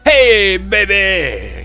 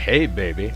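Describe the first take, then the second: First: It is said loudly, like an exclamation. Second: It is said in a calm, ordinary way.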